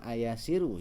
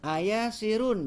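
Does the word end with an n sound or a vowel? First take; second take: vowel; n sound. First: The word ends on a vowel without n. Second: The word ends with a final n sound. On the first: It becomes calling out to someone. The speaker calls it wrong. "bukan ayasiru ya ... nanti jadi manggil" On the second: It asks whether a person is somewhere. The speaker calls it right. "jangan lupa tanwinnya ya"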